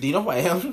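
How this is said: It is said in a joking, disbelieving tone.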